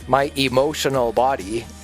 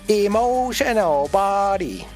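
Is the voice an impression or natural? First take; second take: natural; impression. First: It is said in the speaker's ordinary voice. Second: It is said in a put-on imitation voice.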